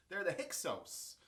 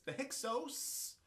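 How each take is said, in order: First: "Hyksos" said as HIK-sohs with a settled falling end; confirming the name. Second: "Hyksos" said as HIK-sohs with a questioning rise; checking the name. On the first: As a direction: state "Hyksos" firmly, as settled. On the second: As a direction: try out "Hyksos" as a question, ending high. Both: Shown as a demonstration. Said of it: "called themselves the Hyksos".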